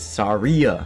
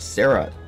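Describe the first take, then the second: First: An 'ee' sound comes before the final vowel. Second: There is no 'ee' sound before the end. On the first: The speaker calls it right. "There's an I in there" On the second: The speaker calls it wrong. "it's not Sarah"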